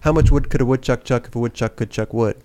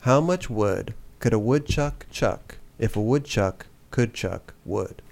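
First: It is said at normal, quick speed. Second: It is said slowly and carefully.

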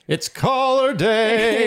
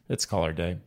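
First: It is said brightly, with more enthusiasm. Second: It is said flatly, with little enthusiasm. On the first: The speaker calls it right. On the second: The speaker calls it wrong.

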